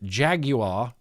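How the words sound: Jaguar is pronounced in a British way. "like a Brit, like a British person"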